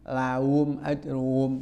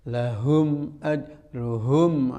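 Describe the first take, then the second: First: The h sound in the first word is dropped. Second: The h sound in the first word is pronounced. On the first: The speaker calls it wrong. "Lahum ajruhum jadi laum" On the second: The speaker calls it right. "jangan laum"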